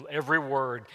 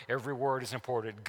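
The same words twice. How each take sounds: First: "every word" drawn out and weighted, each word set apart; stressed slowly. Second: Said in the usual way. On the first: Shown as a demonstration. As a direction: lean on "every word" to make them listen.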